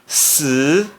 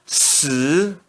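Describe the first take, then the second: First: The pitch rises from middle to high. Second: The same.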